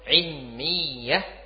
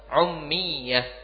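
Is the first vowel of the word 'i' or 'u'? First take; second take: i; u. First: The first vowel is an 'i' sound. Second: The first vowel is a 'u' sound.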